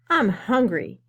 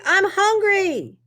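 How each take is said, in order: First: It is said at a normal volume. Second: It is yelled loudly.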